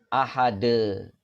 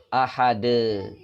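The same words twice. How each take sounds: No difference in how they are said.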